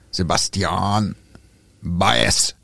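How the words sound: The name is pronounced in a Spanish style. The speaker calls it right. "dann wird der gar nicht so französisch ausgesprochen"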